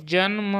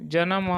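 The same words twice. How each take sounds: First: जन्म with n joined to m, 'jan-ma'; no vowel between न and म in जन्म; तत्सम उच्चारण. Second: जन्म loosened to 'ja-nam', vowel after न; तद्भव उच्चारण. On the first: (जन्म में न आधा बोलें) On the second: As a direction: break the cluster in जन्म with a short a. (जन्म को 'जनम' बोलें) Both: Shown as a demonstration. Teacher contrasts Sanskrit and Hindi forms.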